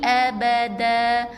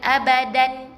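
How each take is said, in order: First: The word ends on an open a vowel. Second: The word ends with an added n sound. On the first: The speaker calls it right. "Jadi makithi nafihi abada" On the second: The speaker calls it wrong. "bukan abadan"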